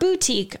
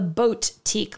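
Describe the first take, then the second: First: The first syllable sounds like 'boo'. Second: The first syllable sounds like 'boat'. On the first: The speaker calls it wrong. "not boutique. I'm not mispronouncing" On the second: The speaker calls it right. "like boats that sail in the water"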